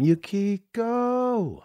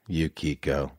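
First: Yukiko sung out high and very slow, drawn long; savoring the name. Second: Said in the usual way. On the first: Shown as a demonstration. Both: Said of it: "That's such a great name".

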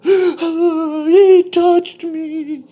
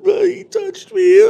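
First: High wailing mock sob, stretched out very slowly; fake bawling. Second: Very high, loud mock wail; fake bawling. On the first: Coworker fake-sobbing his story to the lawyers, mock bawling. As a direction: ham up a crocodile-tears wail. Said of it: "he just starts bawling". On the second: Coworker mimics his fake crying once the door shuts, loud mock wail. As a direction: overdo the crocodile-tears cry. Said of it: "he goes from".

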